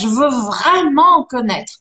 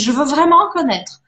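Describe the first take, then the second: First: Vraiment is said with strong, intensified emphasis. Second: Vraiment is said plainly, without extra intensity.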